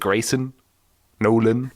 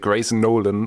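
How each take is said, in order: First: There is a short break between the names. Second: The two names run together without a break. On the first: "you have to break" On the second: "you want to say Grayson Nolan"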